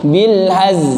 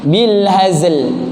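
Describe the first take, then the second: First: The final consonant is dropped. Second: The final consonant is fully pronounced. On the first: The speaker calls it wrong. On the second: The speaker calls it right.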